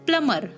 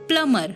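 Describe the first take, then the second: First: The b sound is silent in the word. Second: The same.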